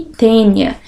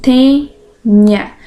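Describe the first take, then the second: First: Said in the usual way. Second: "tênia" slowly split in two; syllable by syllable. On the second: Shown as a demonstration. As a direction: pause between the syllables of "tênia". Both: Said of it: "Então, olha lá".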